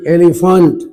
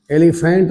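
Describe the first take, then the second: First: एलिफेंट ending in a weak 'funt'; correct pronunciation. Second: एलिफेंट ending in a full 'fent'; wrong pronunciation. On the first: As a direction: say एलिफेंट as 'eli-funt'. (एलिफेंट को 'एलिफंट' बोलें) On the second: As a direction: say एलिफेंट as 'eli-fent'. (एलिफेंट में 'फें' साफ़ बोलें) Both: Shown as a demonstration. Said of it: "एलिफेंट नहीं".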